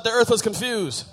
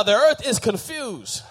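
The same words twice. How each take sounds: First: Said in the usual way. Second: Louder congregational call-back; said loud on request. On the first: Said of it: "Somebody shout". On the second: Shown as a demonstration. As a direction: say it out loud, on cue. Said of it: "Say it loud".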